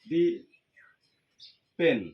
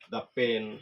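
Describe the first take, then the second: First: The word 'the' has an 'ee' vowel. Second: The word 'the' has an 'uh' vowel. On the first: The speaker calls it wrong. "এমনটি কিন্তু হবে না।" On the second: The speaker calls it right. "Consonant থাকার কারণে এই শব্দটির উচ্চারণ হবে দা।"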